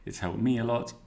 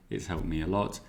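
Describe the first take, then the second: First: Me lifted higher and leaned on in It's helped me a lot; stress on me. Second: Even phrase ending on a rising lot; plain. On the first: Teacher repeats the model sentence, stressing me. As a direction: push the word me up above the rest. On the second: Teacher reads the model sentence, plain rising close. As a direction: lot lifted slightly at the end. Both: Shown as a demonstration. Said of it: "repeats the phrase, two readings".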